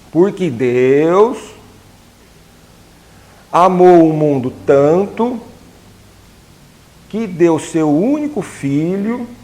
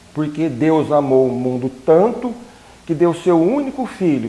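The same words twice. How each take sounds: First: It is read at a slower, careful pace. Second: It is read at a normal, quicker pace.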